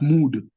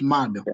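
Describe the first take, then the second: First: The vowel is a long oo sound. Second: The vowel is an a sound. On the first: The speaker calls it wrong. "you won't refer to those pile of soil as mood" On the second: The speaker calls it right. "which come out as A in the pronunciation"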